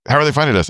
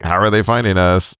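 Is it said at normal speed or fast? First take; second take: fast; normal. First: It is said quickly, rushed. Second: It is said at a normal speed.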